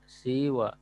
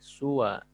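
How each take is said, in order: First: It starts with i and ends on a long vowel. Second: It starts with u and ends on a short vowel. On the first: "mengkasrohkan sinnya dan memanjangkannya" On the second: "mendomahkan berarti su ya dan memendekkan"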